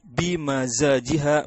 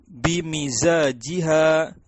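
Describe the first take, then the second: First: The vowel after m is an 'a' sound. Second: The vowel after m is an 'i' sound. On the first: "atau fathah" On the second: "mimnya bisa dibaca kasro"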